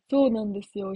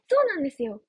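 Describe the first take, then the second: First: Put-on low voice, markedly deep. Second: Said in the usual way. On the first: Shown as a demonstration. Streamer showing listeners the new low voice, deep. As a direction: drop the pitch right down. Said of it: "低い声". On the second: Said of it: "声の切り替え".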